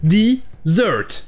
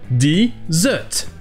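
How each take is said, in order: First: The R sound is clearly pronounced. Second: The R sound is silent. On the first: "En anglais américain, ce sera dessert. Toujours avec le son du R" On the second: "en Angleterre, le R est muet"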